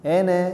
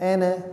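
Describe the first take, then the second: The two takes are said the same way.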